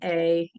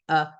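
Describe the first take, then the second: First: The word has a full vowel. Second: The word has a reduced vowel. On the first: This is the form usually taught. "we tend to teach, oh, this word says a" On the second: This is the form usually used in speech. "but the majority of the time it's going to be uh"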